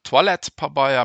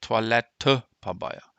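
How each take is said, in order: First: The vowel after 'Toilett' is left silent. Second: The vowel after 'Toilett' is clearly pronounced. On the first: The speaker calls it wrong. "Me so net" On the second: The speaker calls it right. "Den Etremer gëtt geschwaart"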